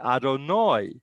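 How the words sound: It ends with an 'oy' sound, Ashkenazi style.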